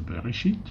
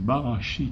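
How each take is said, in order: First: The first vowel sounds like 'e'. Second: The first vowel sounds like 'a'. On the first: In the beginning. "se prononce Bereshit" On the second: He created six. "si vous le prononcez Barachit"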